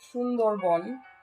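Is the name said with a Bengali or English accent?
Bengali. The name is said with a Bengali accent. "my Bengali because I try and say the correct pronunciation"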